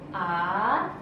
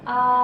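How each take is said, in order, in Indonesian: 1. Nada naik terus. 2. Nada tetap datar. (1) "nada naik" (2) "nada datar"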